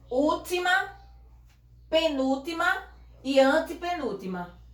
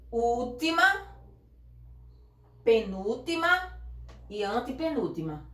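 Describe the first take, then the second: First: Última, penúltima each called out higher and separately; syllable counting, high. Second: Said in the usual way. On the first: Shown as a demonstration. Teacher counting syllables back to front, called higher. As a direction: count the syllables off, bright and raised. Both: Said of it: "De trás pra frente".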